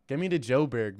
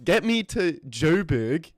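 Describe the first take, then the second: First: Said in the usual way. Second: Slow, put-on South African accent. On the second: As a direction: drawl it like a Joburg local, South African accent. South African accent, then plain take.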